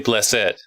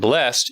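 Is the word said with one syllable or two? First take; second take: two; one. First: The word has two syllables; the e is pronounced. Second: The word has one syllable; the final e is silent. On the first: "you pronounce the E where normally you wouldn't" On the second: "Instead of saying blessed"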